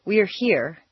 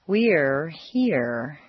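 First: "we're here" quick, one step per vowel; short single vowels. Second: "we're here" stretched, each vowel on two stair steps; lengthened vowels. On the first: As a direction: say "we're here" briefly, vowels not stretched. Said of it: "Instead of". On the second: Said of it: "put them on two stair steps instead of just one". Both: Shown as a demonstration.

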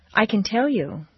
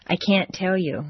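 First: "can" unstressed, pitch peak on "tell", then fall. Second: "can't" full-voweled with a stopped T before "tell"; even tune, "can't" held firm, falling on "you"; stressed can't. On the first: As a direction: stress on "tell", "can" quick and light. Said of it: "Yes, you can". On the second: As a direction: give both "can't" and "tell" weight. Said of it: "or no, you can't". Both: Shown as a demonstration.

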